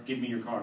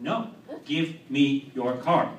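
First: Said in the usual way. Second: Every word of "give me your car" spaced out, louder; slow insistent demand. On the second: Retold or imitated. Driver refusing the swap after a crash, slow insistent demand.

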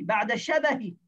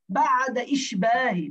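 First: شبه said short and clean, no extra vowel; teacher's correct pronunciation of شبه; corrected reading. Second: Slow, stretched إشباه with the extra vowel; reading error, lengthened إشباه; drawn-out misreading. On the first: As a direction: give the correct شبه crisply. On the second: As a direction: read بعد إشباه as the wrong, drawn-out form. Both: Shown as a demonstration.

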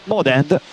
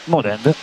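The two takes are said the same way.

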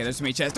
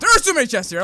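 First: Said in the usual way. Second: Higher, louder burst of suspicion; loud, suspicious repeat. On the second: Real, not acted. Player distrusts a room of chests, loud alarm. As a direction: raise the voice in alarm.

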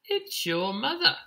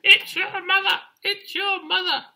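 First: High, rising bee voice; buzzing bees. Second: Very high, loud falsetto squawk; squawking birds. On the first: Bees announce the chick's mother, high rising voice. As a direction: pipe the news up like a little bee. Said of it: "buzzed the bees". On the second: Birds announce the chick's mother, loud high squawk. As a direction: screech the news like excited birds. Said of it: "squawked the birds in the trees". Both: Acted.

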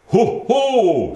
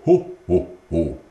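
First: High, loud fumbled ho ho; a father trying Santa's laugh and missing; high, loud botched Santa laugh; clumsy Santa laugh. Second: Proper Santa laugh. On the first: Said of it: "du gør det altså helt forkert". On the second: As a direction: show how Santa really laughs. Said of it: "Julemanden, han siger". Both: A narrator's reading.

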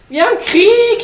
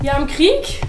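First: High, very loud battle cry; full-voiced high shout on KRIEG. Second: KRIEG rising high as a question; loud, high, rising on Krieg; questioning announcement. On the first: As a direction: yell it as an alarm. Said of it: "schrie der Pinguin". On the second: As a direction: ask it with a lifted KRIEG. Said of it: "sagte der Pinguin". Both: A narrator's reading.

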